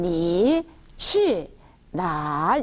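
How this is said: Each syllable is said separately with pauses between. The speaker calls it wrong. "이렇게 배운 것처럼 니, 취, 날 이러지 않아요"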